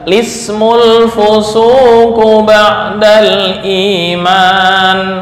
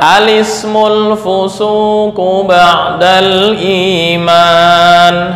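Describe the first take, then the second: First: The phrase begins directly with an 'l' sound. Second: The phrase begins with an 'a' vowel before 'l'. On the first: "menghilangkan hamzah wasol dan memulai dengan lam yang dibaca kasroh" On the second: "memulai dengan hamzah yang dibaca fathah diikuti lam yang dibaca dengan kasroh"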